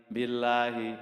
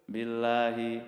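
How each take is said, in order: Both takes have the same delivery.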